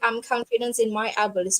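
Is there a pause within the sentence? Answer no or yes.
no. It is said straight through without a pause. The speaker calls it wrong. "don't say it fully"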